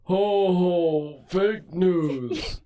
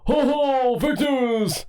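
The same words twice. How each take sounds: First: It is said slowly. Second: It is said faster.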